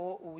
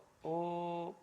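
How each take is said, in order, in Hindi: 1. स्वर ओ से बदलकर एक अलग उ हो जाता है। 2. स्वर ओ बिना बदले लंबा खींचा जाता है। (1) "कुछ उसको ऊ बोलते हैं, ये ऊ नहीं है" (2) "ये प्लुत है। ओ का दीर्घ उच्चारण होता है।"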